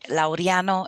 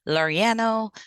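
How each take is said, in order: First: The name is said with a Spanish pronunciation. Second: The name is said with an American pronunciation. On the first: "in Spanish" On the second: "that's the American way of saying it"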